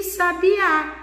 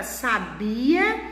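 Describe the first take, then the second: First: "sabiá" with the weight on the open last Á; stress on final Á. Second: "sabia" with the weight on BI; stress on BI. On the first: Teacher showing how accent changes a word, final Á stressed in "sabiá". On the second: Teacher showing how accent changes a word, BI stressed in "sabia". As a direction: stress the middle BI of "sabia", light final A. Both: Shown as a demonstration. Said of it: "de outra forma".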